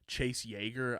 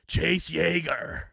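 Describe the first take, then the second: First: The name is said in a plain, ordinary voice. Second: The name is said in an absurd, over-the-top voice.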